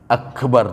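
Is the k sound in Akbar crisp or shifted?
crisp. The k sound is a crisp, plain k.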